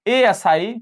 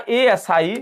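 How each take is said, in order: Both takes have the same delivery.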